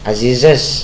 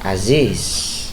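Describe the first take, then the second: First: It is said with an extra final syllable. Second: It is said with no extra final syllable. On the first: The speaker calls it wrong. "Jangan dibaca Azizes" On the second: The speaker calls it right. "tapi bacanya tetap Aziz"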